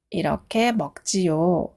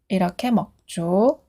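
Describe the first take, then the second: First: The ending is said fully as two syllables. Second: The ending is contracted into one short syllable. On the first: The speaker calls it wrong. "문법 책을 보면 동사 지요라고 되어 있는데" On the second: The speaker calls it right. "짧게 줘라고 하면 돼요. 그게 더 자연스러워요"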